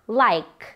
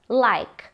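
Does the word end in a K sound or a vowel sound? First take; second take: K sound; K sound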